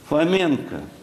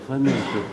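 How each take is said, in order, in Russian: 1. Голос звучит высоко. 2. Голос звучит на нормальной высоте. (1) "За счет повышения тембра" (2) "я скажу в другой тесситуре"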